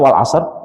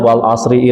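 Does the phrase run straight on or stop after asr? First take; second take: stops; runs on. First: It stops at the end of the verse. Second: It runs on into the next verse without stopping. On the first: The reciter pauses after every verse. The speaker calls it right. "satu ayat berhenti" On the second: The reciter wants to finish quickly. The speaker calls it wrong. "Disambung kan"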